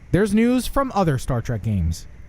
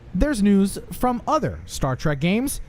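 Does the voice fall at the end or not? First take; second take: falling; not falling. First: The voice falls downward at the end. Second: The voice does not fall at the end.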